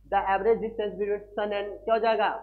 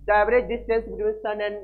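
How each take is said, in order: First: Said in the usual way. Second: Slow, word by word, for writing down; slow dictation. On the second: Shown as a demonstration. Teacher dictating the definition to students, slow. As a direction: dictate it slowly so they can copy. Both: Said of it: "क्या होता है बताओ".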